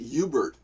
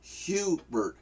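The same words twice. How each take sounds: First: The word begins without an H sound. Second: The word begins with an H sound. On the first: "they don't pronounce the H. You- They they pronounce it Hubert" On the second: "not Hubert"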